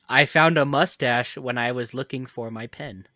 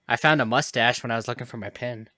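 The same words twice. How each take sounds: First: The sentence is spoken slowly and clearly. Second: The sentence is spoken at a normal pace.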